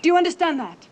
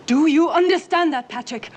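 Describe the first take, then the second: First: High, loud scolding question; sharp motherly check; stern demand. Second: High, very loud, every word driven home; full-voiced motherly fury; angry shouted demand. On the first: Acted. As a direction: demand that the child answer. Mother demands child's obedience. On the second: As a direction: yell it at the child for an answer. Mother repeats demand, louder.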